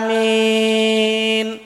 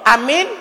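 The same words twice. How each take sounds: First: The second vowel is drawn out long. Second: The first vowel leans toward an e sound. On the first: "min panjang" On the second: "pakai imalah"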